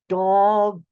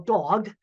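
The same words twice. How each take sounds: First: The word is said slowly, each sound enunciated. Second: The word is said at normal speed.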